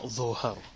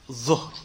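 First: A vowel is added after the middle consonant. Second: The middle consonant has no vowel after it. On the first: The speaker calls it wrong. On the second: The speaker calls it right. "you have to have the sukoon on the middle letter"

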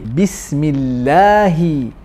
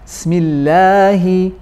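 First: The initial b sound is pronounced clearly. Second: The initial b sound is dropped. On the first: The speaker calls it right. "Pronounce the letter ba in the beginning clearly" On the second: The speaker calls it wrong. "not smillahi"

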